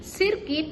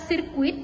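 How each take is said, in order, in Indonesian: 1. Tidak ada bunyi u sebelum i di akhir. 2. Ada bunyi u sebelum i di akhir. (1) "penghilangan fonem U" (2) "Lafalan bakunya itu terdiri dari kata sirkuit"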